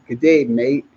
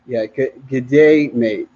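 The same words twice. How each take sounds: First: A second light go at an Australian accent; hammy Australian greeting, rising at the end. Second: A light, hammy stab at an Australian accent; lightly put-on Australian greeting. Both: Shown as a demonstration. Jet ski vlogger to viewers, bad mock Australian accent. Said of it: "trying to sound like I'm from Australia".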